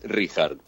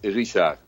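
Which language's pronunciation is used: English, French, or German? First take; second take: German; French. First: The name is pronounced the German way. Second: The name is pronounced the French way. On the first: "en alemán es Richard" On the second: "en francés es Richard"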